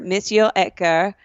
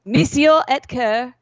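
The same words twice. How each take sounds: First: French-accented name, Monsieur said the French way. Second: Monsieur Ecker said slowly with a hammed-up French accent; drawn-out mock French Monsieur Ecker. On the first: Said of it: "What did you just say?". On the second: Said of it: "You gotta stop saying that". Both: Shown as a demonstration.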